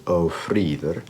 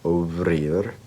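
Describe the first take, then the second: First: The consonant after the first vowel is an f. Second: The consonant after the first vowel is a v. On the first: "I say ofriður just because uh, o is a um, is a suffix" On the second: "depending on how you want to say it"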